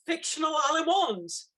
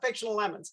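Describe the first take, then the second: First: The name is pronounced the French way. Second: The name is pronounced the plain English way. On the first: The speaker calls it wrong. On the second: The speaker calls it right.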